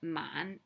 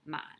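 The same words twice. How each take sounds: First: The pitch rises from low. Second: The pitch stays low and level. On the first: It means slow. "that's the low rising" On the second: It means ten thousand. "just the low tone man"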